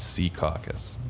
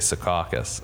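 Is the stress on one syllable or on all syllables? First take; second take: all syllables; one syllable. First: Every syllable carries the stress. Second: Only one syllable carries the stress. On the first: This is how locals say it. "There's like four stressed vowels in the word" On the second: This is how an outsider says it. "you have to pick one vowel"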